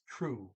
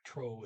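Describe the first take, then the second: First: The vowel sounds like 'oo'. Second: The vowel sounds like 'oh'. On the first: The speaker calls it right. "it's true. Okay. The O is usually a double O" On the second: The speaker calls it wrong. "T R O is not tro"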